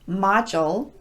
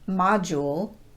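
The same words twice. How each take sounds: First: The vowel after the D is a schwa. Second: The vowel after the D is a long U. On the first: The speaker calls it right. "reduced the long U sound to more of a schwa vowel" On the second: The speaker calls it wrong. "not module"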